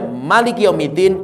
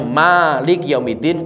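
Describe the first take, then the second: First: The first vowel of Malik is kept short. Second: The first vowel of Malik is drawn out long. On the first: It means ruler. "Kalau dibaca pendek" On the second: It means owner. "bisa dibaca panjang"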